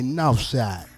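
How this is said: The consonants are pronounced soft and loose. "we say north side"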